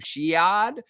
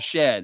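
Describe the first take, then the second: First: The name has a different vowel from shed. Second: The name sounds like the word shed. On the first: The speaker calls it wrong. "people are going to say his last name" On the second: The speaker calls it right. "It just says Jamal and then Shed, the word Shed"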